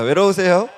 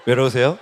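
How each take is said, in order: First: It is said in a sincere, heartfelt way. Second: It is said in a greasy, flirtatious way.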